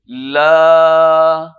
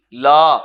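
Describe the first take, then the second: First: "لا" pulled long and loud with the vowel drawn out; stretched la. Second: "لا" clipped short with no stretch; curt incorrect "لا"; wrong short la. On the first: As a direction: stretch the "لا" right out. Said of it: "کھینچ کے ہم ذرا لمبا کریں گے". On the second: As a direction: say "لا" short, as the mistake. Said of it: "لا نہیں". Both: Shown as a demonstration.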